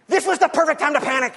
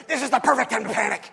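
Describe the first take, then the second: First: This was the perfect time to panic, each word pressed, louder and a little higher; emphatic Woody quote. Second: Said in the usual way. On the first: Retold or imitated. Woody answering Buzz, said with emphatic stress. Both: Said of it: "He looks back and goes".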